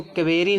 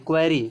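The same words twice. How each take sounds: First: क्वेरी split as ke-ve-ri; wrong reading क्वेरी. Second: क्वेरी with k and w joined; correct reading क्वेरी. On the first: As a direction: put a vowel between k and v in क्वेरी. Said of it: "तो ये गलत". (क्वेरी को 'के-वे-री' तोड़कर) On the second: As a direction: start क्वेरी on one kw cluster. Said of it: "क्वेरी पढ़ेंगे". (क्वेरी, 'क्व' मिलाकर) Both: Shown as a demonstration.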